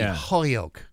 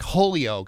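First: The middle of the name is swallowed. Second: The middle of the name is fully pronounced. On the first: The speaker calls it right. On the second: The speaker calls it wrong.

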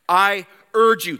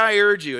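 First: It is said in a fervent, urgent way. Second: It is said in an offhand, casual way. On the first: The request is pressing and must be heeded. The speaker calls it right. "he says this, I urge you. That means to implore urgently" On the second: The request can wait until it is convenient. The speaker calls it wrong. "it's not like this. Paul's not saying, yeah, I urge you"

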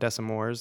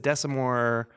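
First: The name ends with an S sound. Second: The name ends without an S sound. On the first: The speaker calls it wrong. "Not Desimore's" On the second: The speaker calls it right. "the silent S at the end"

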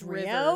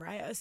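First: The first syllable sounds like ree, as in Spanish. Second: The first syllable sounds like the English word rye. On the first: This is the common Spanish word. The speaker calls it right. "a really popular word in Spanish" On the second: This is how most people say the name. The speaker calls it wrong. "everyone pronounces my name Ryos"

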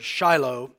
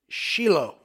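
First: The name is said the usual English way. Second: The name is said the Hebrew way. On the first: This is how English speakers say it. The speaker calls it right. "in Israel, they don't pronounce that word Shiloh" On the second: This is how people in Israel say it. The speaker calls it wrong. "They pronounce it Shiloh. But they're wrong"

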